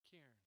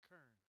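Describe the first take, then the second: First: The first syllable sounds like beer. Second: The first syllable sounds like burr. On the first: The speaker calls it right. "It's like beer" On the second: The speaker calls it wrong. "you don't go to the bar to order a burr, you don't say Kern"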